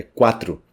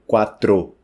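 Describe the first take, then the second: First: "quatro" ending in tru; Portuguese pronunciation. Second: "quatro" slowly with full final TRO; over-pronounce the o of "quatro"; wrong pronunciation. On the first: Teacher corrects the ending, Portuguese pronunciation. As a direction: turn final o of "quatro" into u. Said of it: "esse O no final soa como U". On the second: Teacher shows what it isn't, wrong pronunciation. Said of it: "Então, não é". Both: Shown as a demonstration.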